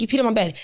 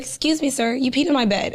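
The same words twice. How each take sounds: First: Said in the usual way. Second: Gently polite wake-up, not angry; calm and polite, not scolding; nice, not angry. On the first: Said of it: "shook him and I was like". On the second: Retold or imitated. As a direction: tell him kindly, with no anger. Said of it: "I didn't say it angrily".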